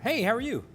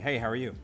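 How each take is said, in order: First: It is said higher, with a wider, livelier pitch range. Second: It is said flatly and carelessly, with little pitch range. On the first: The speaker seems interested and engaged. "it's higher and there's there's more dynamics in the range" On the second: The speaker doesn't really care about the answer. "It's sort of flippant, you don't really care"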